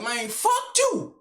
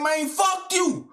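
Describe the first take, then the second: First: Retold defiance. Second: Said slow and louder, fuck hit; "Man, fuck you" drawn out as a shout; louder retold defiance. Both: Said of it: "I straight said".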